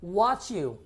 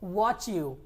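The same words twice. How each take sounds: First: The t and y merge into a ch. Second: The same.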